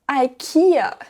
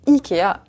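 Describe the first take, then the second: First: The name has an English-style pronunciation. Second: The name has a French-style pronunciation. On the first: "la moitié de la planète prononce ce magasin IKEA" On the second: "que j'ai toujours prononcé Ikea"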